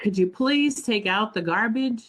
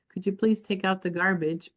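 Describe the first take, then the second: First: It is asked with a sigh, sounding annoyed. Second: It is asked in a neutral, pleasant tone.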